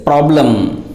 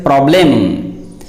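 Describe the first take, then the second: First: Problem with a weak last vowel, PROB-lum; accurate pronunciation. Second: Problem with a full "e", PROB-lem; common mispronunciation. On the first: Teacher correcting many people, problem said PROB-lum. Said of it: "This is the accurate pronunciation". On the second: Teacher showing many people's mistake, problem as PROB-lem. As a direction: say problem ending in a clear "-lem". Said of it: "Many people pronounce that word as". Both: Shown as a demonstration.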